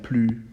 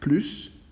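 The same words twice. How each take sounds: First: The final S sound is silent. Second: The final S sound is pronounced. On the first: It compares a quality, before an adjective. "The S sound is gone" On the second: It compares an action, after a verb. "We are going to pronounce the S"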